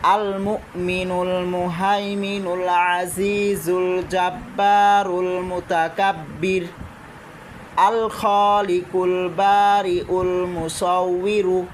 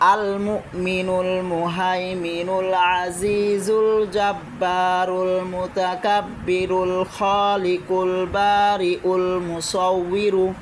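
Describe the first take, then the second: First: It stops briefly after mutakabbir, then continues. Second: It runs on in one breath without pausing. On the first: "ওয়াকফ করে মাঝখানে ওয়াকফ দিয়েও পড়তে পারেন" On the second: "পুরা লাইনটা অনেকের কাছে একদমে বলতে কষ্টকর হয়ে যাবে"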